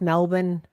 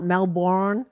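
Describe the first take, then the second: First: It is said the local Australian way. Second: It is said the way Americans often say it. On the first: The speaker calls it right. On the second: The speaker calls it wrong. "not Melbourne"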